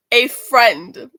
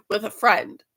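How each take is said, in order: First: "A friend" repeated louder, leaning hard on friend; stress on friend. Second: Said in the usual way. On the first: Shown as a demonstration. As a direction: insist on the word friend, louder.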